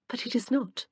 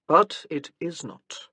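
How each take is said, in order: First: Light, playful retort, a touch higher; teasing. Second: Slow, weary and resigned; resigned sigh. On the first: Wife teases husband about his family duties, playfully. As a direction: tease him gently with the line. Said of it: "Her eyes twinkled at him". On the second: Husband concedes to wife, slow and resigned. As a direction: let it drag out like a defeated sigh. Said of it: "He sighed again". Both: A narrator's reading.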